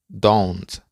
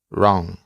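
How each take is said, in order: First: The word is said in full with its final t. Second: The word is reduced, without its final t. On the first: This is the formal way to say it. "De manera formal se pronuncia don't" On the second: This is the informal way to say it. "de manera informal se pronuncia"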